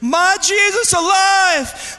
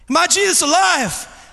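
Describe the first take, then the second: First: It is screamed very loudly. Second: It is said a little louder.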